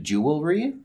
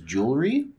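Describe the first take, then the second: First: The word is said with three syllables. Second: The word is said with two syllables. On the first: The speaker calls it right. "It's supposed to be three syllables, not two" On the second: The speaker calls it wrong.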